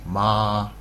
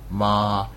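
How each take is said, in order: No difference in how they are said.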